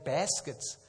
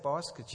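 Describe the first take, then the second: First: It is said with an American accent. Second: It is said with a South African accent. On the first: The speaker calls it right. "You say baskets" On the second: The speaker calls it wrong. "in America, you don't say baskets"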